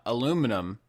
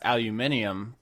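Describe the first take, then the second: First: It is said as aluminum, without the extra syllable. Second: It is said as aluminium, with an extra syllable.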